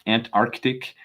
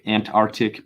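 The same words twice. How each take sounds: First: The first c sound is clearly pronounced. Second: The first c sound is dropped. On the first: The speaker calls it right. "we probably should be saying that C in there" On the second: The speaker calls it wrong. "the lazy American"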